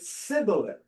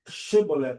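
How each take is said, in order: First: The word begins with a plain s sound. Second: The word begins with a sh sound. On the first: The speaker calls it wrong. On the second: The speaker calls it right.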